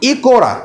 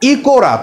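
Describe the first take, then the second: First: An o vowel is heard between k and r. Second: The same.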